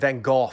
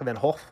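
First: The name is said with English pronunciation. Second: The name is said with a Dutch-style ending. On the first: "Let me use the English pronunciation" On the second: "Something like Van Gogh with a glottal stop in the back"

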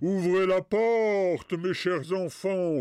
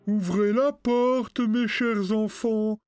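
First: The voice is rough and harsh. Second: The voice is soft and gentle.

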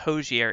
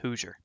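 First: The first syllable does not sound like 'who's'. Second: The first syllable sounds like 'who's'. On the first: The speaker calls it wrong. "It's not Hozier" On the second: The speaker calls it right. "Like, who's your daddy?"

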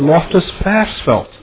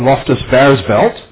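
First: Versfeld begins with an F sound. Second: Versfeld begins with a V sound. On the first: The speaker calls it right. "but they're played at" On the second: The speaker calls it wrong. "makes me cringe continuously on the radio"

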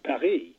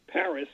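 First: Paris is said with a French pronunciation. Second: Paris is said with an English pronunciation. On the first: "not Paris" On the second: "Paris we pronounce Paris"

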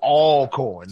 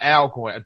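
First: The first syllable sounds like the word 'all'. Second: The first syllable sounds like the name 'Al'. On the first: The speaker calls it right. "So Alcorn, not Alcorn" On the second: The speaker calls it wrong. "not Alcorn"

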